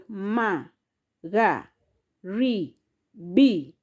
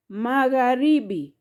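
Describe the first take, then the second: First: "ma, ga, ri, bi" as four separated syllables; a clear pause after each of ma, ga, ri, bi. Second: Said in the usual way. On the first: Shown as a demonstration. Teacher counting out four syllables for learners, syllable by syllable. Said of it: "Those are four syllables". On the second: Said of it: "Magharibi has syllable".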